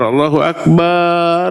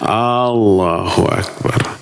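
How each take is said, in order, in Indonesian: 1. Vokal di akhir Akbar dipanjangkan. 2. Vokal di awal Allahu dipanjangkan. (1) "Atau yang dipanjangkan itu barnya Allahu Akbar" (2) "A-nya ini disatukan menjadi panjang"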